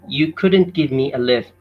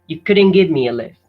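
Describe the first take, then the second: First: Every sound is said fully, including final T. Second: Sounds are reduced and the final T dropped. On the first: "as in a normal way" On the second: "the T in the word lift is missed out. So it is read like this"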